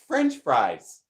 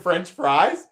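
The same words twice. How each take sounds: First: The stress falls on the first word. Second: The stress falls on the second word. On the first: The speaker calls it right. "The upward inflection is at the beginning" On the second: The speaker calls it wrong. "why are you saying it like that, Grandma?"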